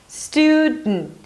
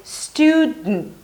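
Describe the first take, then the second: First: The D is held and released through the nose. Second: The D is held and released through the nose.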